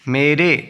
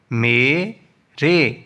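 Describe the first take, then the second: First: Said in the usual way. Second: "مے، رے" as two isolated syllables. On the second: Shown as a demonstration. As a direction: pause between "مے" and "رے". Teacher splits, then joins word.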